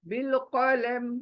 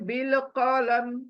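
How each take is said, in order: First: The phrase ends on a bare consonant. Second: The same.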